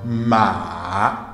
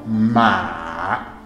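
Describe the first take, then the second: First: The pitch dips low, then rises. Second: The pitch dips low, then rises.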